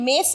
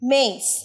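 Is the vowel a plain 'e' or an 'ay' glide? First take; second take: plain e; ay glide. First: The vowel is a plain, short 'e' sound. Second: The vowel glides from 'e' to 'ee'. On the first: The speaker calls it wrong. "অনেকে মেস বলবে" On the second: The speaker calls it right. "সঠিক উচ্চারণে একটা হর্ষই থাকবে"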